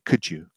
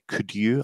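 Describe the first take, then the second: First: The d and y merge into a j sound. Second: The d and y are said separately. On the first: The speaker calls it right. "I say, ... it's a j sound" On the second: The speaker calls it wrong. "I don't say"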